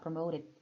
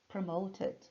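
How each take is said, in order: First: The t and d sounds are softened and relaxed. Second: The t and d sounds are crisp and full.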